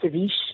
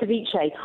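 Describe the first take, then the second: First: It is said with a French-sounding pronunciation. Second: It is said without a French-sounding pronunciation. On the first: The speaker calls it wrong. "they sometimes think it's French, so they say something like ceviche" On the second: The speaker calls it right. "you got it right, ceviche"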